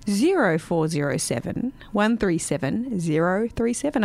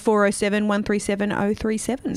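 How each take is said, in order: First: The number is read slowly and deliberately. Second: The number is read at a normal, quicker pace.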